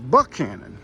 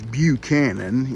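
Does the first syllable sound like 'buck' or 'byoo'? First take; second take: buck; byoo. First: The first syllable is a plain 'buck' sound. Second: The first syllable has a 'byoo' sound. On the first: This is the local Southern way of saying it. "the old southern uh, southern American English dialect" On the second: This is the usual way of saying the name. "it'd have a little Y sound to it"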